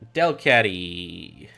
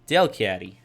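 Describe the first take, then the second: First: It is said with an American tinge. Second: It is said in his usual non-American accent.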